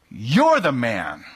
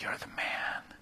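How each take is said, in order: First: It is said angrily, with raging force. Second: It is said sadly, with a broken heart.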